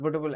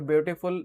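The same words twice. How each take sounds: First: The word is squashed together in one burst. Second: The word is broken into separate syllable parts. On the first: The speaker calls it wrong. "ऐसे तो नहीं पढ़े" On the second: The speaker calls it right. "दो बार में पढ़े रहो"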